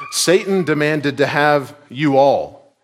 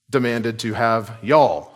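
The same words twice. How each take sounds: First: "you all" stretched slow and pressed, louder; slow emphatic all. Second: "y'all" said as one Southern syllable yawl, falling; Georgia y'all. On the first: Preacher stressing that Jesus means all the disciples, slow and pressed. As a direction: lean slowly on "you all" to show it's plural. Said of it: "or as we would say sometimes". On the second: Georgia preacher recasting Jesus' words for his flock, light Southern y'all. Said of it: "as we would say sometimes in Georgia". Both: Shown as a demonstration.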